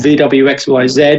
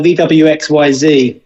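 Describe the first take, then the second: First: The letters are said in an English way. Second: The letters are said in a non-English way.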